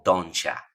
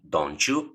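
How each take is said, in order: First: The t and you blend into ch. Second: The t and the you sound separate. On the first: "o don'tcha" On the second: "puede ser un don't you"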